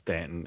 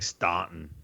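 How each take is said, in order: First: The first vowel sounds like 'a' in 'cat'. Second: The first vowel sounds like 'aw' in 'saw'. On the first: It is said the way locals say it. The speaker calls it right. "but it's Stanton" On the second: It is read the way it is spelled. The speaker calls it wrong. "it looks like Staunton"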